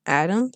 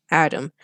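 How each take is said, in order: First: "Adam" rising sharply to the end; "Adam" swooping up into a question; questioning rise. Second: Said in the usual way. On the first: Acted. Phone greeting, read as question.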